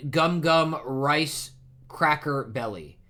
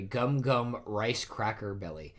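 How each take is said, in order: First: Slow, higher proclamation of "Gum Gum Rice Cracker Belly"; announcing an attack. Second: Said in the usual way. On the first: A narrator's reading. Luffy naming his move for those he caught, slow proud announcement of "Gum Gum Rice Cracker Belly".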